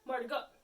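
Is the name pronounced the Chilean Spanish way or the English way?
Chilean Spanish. The name is said with a Chilean Spanish pronunciation.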